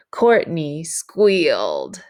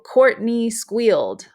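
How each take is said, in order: First: Slow, emphatic "Courtney squealed" with both words drawn out; dramatic payoff. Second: Said in the usual way. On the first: Shown as a demonstration. Teacher reading the proposal lead-in to students, slow and emphatic. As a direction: hold back, then land "Courtney squealed" as the reveal. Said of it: "we emphasize Courtney's response". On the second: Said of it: "the template would go".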